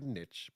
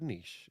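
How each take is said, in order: First: The word rhymes with pitch. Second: The word rhymes with quiche. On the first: The speaker calls it wrong. "every time I hear the word niche, I want to claw my ears out" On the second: The speaker calls it right. "has said the word niche instead of niche"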